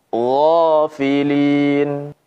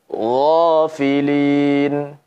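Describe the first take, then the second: No difference in how they are said.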